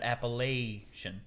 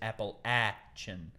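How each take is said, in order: First: The word uses the New Yorker's pronunciation. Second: The word uses the local mountain pronunciation. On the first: This is how the outsider was taught in school. The speaker calls it wrong. "not Appalachian" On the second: This is how people from the mountains say it. The speaker calls it right. "the proper pronunciation is Appalachian"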